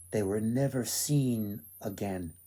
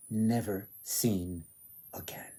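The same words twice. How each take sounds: First: Said in the usual way. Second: Never seen again said slowly, dropping to a hush; slow, fading echo. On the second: Shown as a demonstration. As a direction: repeat Never seen again softly, slower, letting it die away.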